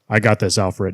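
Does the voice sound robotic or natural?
robotic. It is said in a flat, robotic voice.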